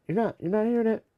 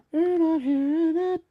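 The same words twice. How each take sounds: First: Said in the usual way. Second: Much higher, loud mock squeal; silly high voice. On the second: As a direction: repeat it in a goofy high-pitched voice.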